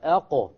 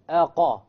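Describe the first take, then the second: First: The q ends in a short echoing release. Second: The q is followed by a full a vowel. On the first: The speaker calls it right. "which is different than a Qalqalah" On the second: The speaker calls it wrong. "Put a fatha on the qaf"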